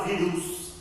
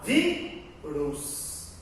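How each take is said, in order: First: VÍRUS with the weight moved to the final RUS; misplaced stress. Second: VÍRUS slowly split, strong VÍ, then RUS; stress on first syllable. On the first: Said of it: "Eu não falo vírus". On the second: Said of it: "a sílaba pronunciada com intensidade". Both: Shown as a demonstration.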